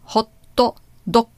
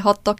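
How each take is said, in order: First: It has a Japanese-style vowel after hot. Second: It is said plainly with no added vowel.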